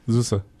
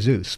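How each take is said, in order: First: The name is said with two syllables. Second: The name is said with one syllable. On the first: The speaker calls it right. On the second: The speaker calls it wrong. "So I wanted to say Zeus"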